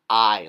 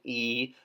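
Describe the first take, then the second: First: The vowel sounds like 'eye' in ice. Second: The vowel sounds like 'ee' in machine. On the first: The speaker calls it wrong. "not I, like ice" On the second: The speaker calls it right. "like the I is like machine"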